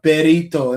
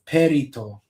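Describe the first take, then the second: First: The word starts with a voiced B sound. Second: The word starts with a voiceless P sound. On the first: "they would probably say uh berito" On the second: "instead of perito"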